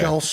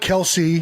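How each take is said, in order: First: The name has one syllable, ending in 's'. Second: The name has two syllables, ending in 'see'. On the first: The speaker calls it wrong. "Don't say" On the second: The speaker calls it right. "it's definitely Kelsey"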